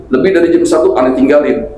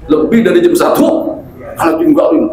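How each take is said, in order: First: Said in the usual way. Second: "Lebih dari jam satu, aneh tinggalin" pitched high, rising at the end; emphatic warning. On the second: Retold or imitated. Retelling a caller's deadline to him, "aneh tinggalin" raised high in emphatic warning. Ultimatum repeated with more emphasis.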